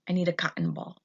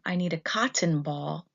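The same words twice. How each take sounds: First: The T in cotton is dropped before N. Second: The T in cotton is fully pronounced. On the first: "we say" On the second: "Instead of"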